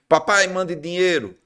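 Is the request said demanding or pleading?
demanding. The request sounds curt and demanding. The son is rudely ordering money. The speaker calls it wrong. "esse vagabundo lá, ó, não quer estudar"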